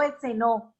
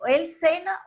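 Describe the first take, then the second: First: "cenó" stressed on the final Ó; final-syllable stress. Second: "cena" stressed on CE, pitched high; first-syllable stress. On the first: Teacher shows it already happened, stressing final NÓ in "cenó". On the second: Teacher contrasts present with past, stressing CE in "cena". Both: Shown as a demonstration. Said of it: "Es algo que ya pasó".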